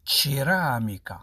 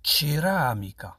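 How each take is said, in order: Both takes have the same delivery.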